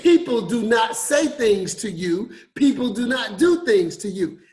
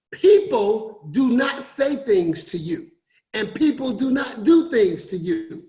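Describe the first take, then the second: First: Restated with weight; repeated emphasis. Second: Slow, emphatic "do not"; deliberate preaching emphasis; stress on not. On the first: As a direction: hammer "not" in "do not do things". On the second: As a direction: lean on "not" in "People do not say things". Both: Shown as a demonstration. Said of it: "Let me repeat that".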